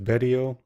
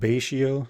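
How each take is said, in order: First: The middle of the name has a 't' sound. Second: The middle of the name has an 'sh' sound. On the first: "Some people pronounce it Betio" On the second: "I pronounce it Baishio"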